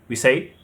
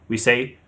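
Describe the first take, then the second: The two takes are said the same way.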